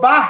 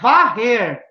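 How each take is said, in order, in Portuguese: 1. A palavra começa com som de b. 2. A palavra começa com som de v. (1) "lá em certas comunidades eles falam" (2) "a gente fala aqui no sul, eu vou varrer a casa"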